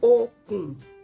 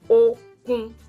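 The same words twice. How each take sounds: First: The first syllable is level, the second low. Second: Both syllables stay on the same level pitch. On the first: It means rope. "re, do" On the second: It means strength. "re, re, that is strength"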